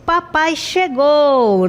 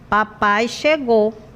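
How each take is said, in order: First: It sounds happy and excited. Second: It sounds flat, without enthusiasm.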